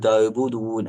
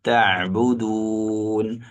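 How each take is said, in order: First: The middle throat sound is weak or missing. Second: The middle throat sound is clearly articulated. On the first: The speaker calls it wrong. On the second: The speaker calls it right.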